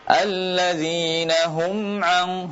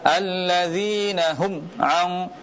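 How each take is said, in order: First: The m sound flows with a nasal hum. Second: The m sound is cut off abruptly. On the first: The speaker calls it right. "kita jelaskan gunnahnya, kita alirkan suara sedikit" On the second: The speaker calls it wrong. "tidak dibaca alladzina hum ang"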